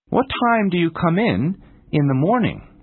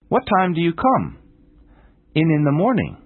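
First: The pause falls after 'come in'. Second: The pause falls after 'come'. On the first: The speaker calls it right. "It is necessary to pause between the two prepositions in" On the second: The speaker calls it wrong. "If you pause after the word come"

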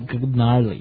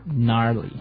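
First: The word begins with a hard g sound. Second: The word begins with an n sound. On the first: The speaker calls it wrong. "you don't say gnarly" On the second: The speaker calls it right. "You say gnarly"

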